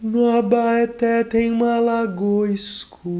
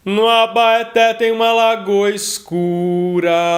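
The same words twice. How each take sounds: First: The voice is velvety and darker. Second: The voice is metallic but darker. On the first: "um timbre mais aveludado e mais escuro" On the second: "um timbre mais metalizado e mais escuro"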